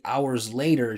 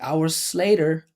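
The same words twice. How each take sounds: First: The end of 'hours' is a buzzing z. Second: The end of 'hours' is a hissing s. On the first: The speaker calls it right. "I would say hours later" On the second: The speaker calls it wrong. "it's because she's not putting any vibration there. She's like hours later"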